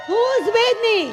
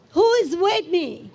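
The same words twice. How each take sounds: First: Higher-pitched rallying cry to the crowd; rousing shout. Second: Said in the usual way. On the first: Real, not acted. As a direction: call it out to fire up supporters. Repeated rallying call to crowd.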